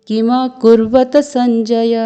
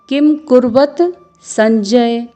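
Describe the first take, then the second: First: It is read in a careful Sanskrit-style way. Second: It is read in a casual Hindi-style way. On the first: The speaker calls it right. "क्योंकि ये संस्कृत है इसलिए आपको इसका उच्चारण करना होगा" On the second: The speaker calls it wrong. "इस तरह से पढ़ते हैं जो कि शुद्ध उच्चारण नहीं है"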